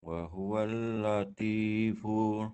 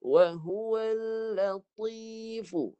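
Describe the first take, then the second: First: Latifu with a thin, light ta, tongue root not raised. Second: Latifu with a thick ta, tongue root raised, slow chant; slow and full, make the ta thick; heavy ta recitation. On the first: Real, not acted. Student reads with thin ta, teacher corrects. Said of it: "yang Haji bunyi tu huruf ta". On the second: Shown as a demonstration. Ustaz models thick ta for the student.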